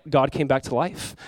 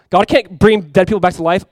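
First: Softer, slow settled answer; quiet conviction. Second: Louder, emphatic mock denial; scoffing denial. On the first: Retold or imitated. Ex-mocker now believing, quiet slow conviction. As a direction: answer it slowly and softly. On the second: Ex-mocker once denying God's power, loud scoffing. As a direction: throw the objection out forcefully.

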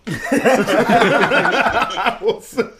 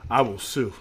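First: High, very slowly stretched through laughter; laughing drawn-out repeat. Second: Said in the usual way. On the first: Acted. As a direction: drag the threat out while cracking up. Repeats joke threat, laughing.

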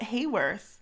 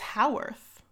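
First: "Hayworth" said with HAY at the start; first syllable as hay. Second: "Haworth" said with HOW at the start; first syllable as how. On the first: Host airing how she wants to say the town's name, "Hayworth" with a HAY sound. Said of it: "I wanna call it Hayworth". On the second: Host correcting to the likelier town name, "Haworth" with a HOW sound. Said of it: "I think it's Haworth". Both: Shown as a demonstration.

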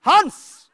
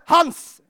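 First: Much louder, higher bellow of Hans; a full shout of Hans into the microphone; roaring into the mic. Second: Raised call across the room, louder; a firm shout of the name Hans. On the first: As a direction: roar the name Hans to get his attention. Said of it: "brølte jeg ut i mikrofonen". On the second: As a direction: call Hans to come over. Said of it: "sa jeg". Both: Retold or imitated.

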